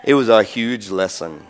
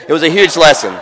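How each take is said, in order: First: Said in the usual way. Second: A laughing, louder redo; louder laughing retake. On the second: Shown as a demonstration. Preacher redoing a line after apologizing, laughing. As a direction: say it again louder, laughing through "huge". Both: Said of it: "I still have my accent. Sorry".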